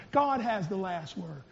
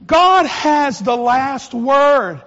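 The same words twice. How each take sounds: First: Low murmur to a neighbour; quiet share. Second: Slow, loud, every word weighted; loud proclamation. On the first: Shown as a demonstration. Congregant to neighbour, soft murmur. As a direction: say it softly to the person beside you. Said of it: "but just share". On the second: Real, not acted. Preacher back at the pulpit, slow loud proclamation. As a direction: proclaim it over the whole church.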